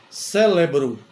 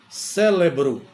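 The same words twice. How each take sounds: No difference in how they are said.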